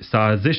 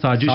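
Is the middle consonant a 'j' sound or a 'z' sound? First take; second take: z; j. First: The middle consonant is a buzzing z sound. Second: The middle consonant is a j sound. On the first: The speaker calls it right. "ਸਾਜ਼ਿਸ਼ ਦਾ" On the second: The speaker calls it wrong. "ਸਾਜ਼ਿਸ਼ ਹੋ ਜਾਣਾ ... ਉਚਾਰਨ ਦੇ ਵਿੱਚ ਗਲਤੀ"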